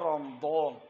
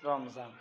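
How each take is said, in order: First: The middle consonant is a d sound. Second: The middle consonant is a z sound. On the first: This is the Arabic pronunciation. "আরবির মধ্যে বলে রমদন" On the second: This is the Urdu pronunciation. "আর উর্দু মাঝে বলে রমজান"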